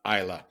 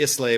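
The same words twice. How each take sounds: First: Isla as EYE-la, silent s; correct pronunciation. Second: Islay read out as ISS-lay; spelling pronunciation. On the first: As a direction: drop the s in Isla and end on la. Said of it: "it's pronounced Isla". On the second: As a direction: say Islay just as it is written, s and all. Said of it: "it's spelled Islay". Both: Shown as a demonstration.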